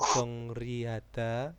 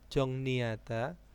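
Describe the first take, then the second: First: The middle consonant is pronounced as r. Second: The middle consonant is pronounced as n. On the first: The speaker calls it wrong. "bukan Jong Jongriada" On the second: The speaker calls it right. "itu bacanya Jongni"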